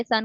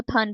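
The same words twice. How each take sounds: First: Said in the usual way. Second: थन with a T-like stop replacing S; child's stopping error. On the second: Retold or imitated. Lecturer shows a child's stopping, थन with TH stop for S. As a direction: say sun as थन, stopped first sound. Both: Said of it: "सन को थन बोल रहा है".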